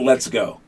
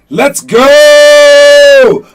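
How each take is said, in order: First: It is said flatly, without energy. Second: It is said with excited, inspiring energy.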